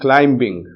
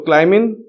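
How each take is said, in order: First: The final g sound is pronounced. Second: The final g sound is dropped. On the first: "G sound or ga sound to be put in the end" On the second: "the short form of these words"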